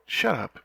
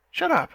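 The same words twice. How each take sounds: First: Flustered protest. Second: Higher, much louder embarrassed shout; squeaky embarrassed outburst; flustered yelp. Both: Acted. Flustered after being teased.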